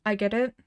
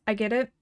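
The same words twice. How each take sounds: The two takes are said the same way.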